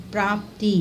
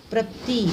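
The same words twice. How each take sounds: First: Said in the usual way. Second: प्राप्ति said as prapti with short a; wrong short vowel. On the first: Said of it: "प्राप्ति नहीं". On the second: Shown as a demonstration. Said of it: "नहीं".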